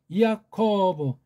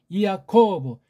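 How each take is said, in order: Both takes have the same delivery.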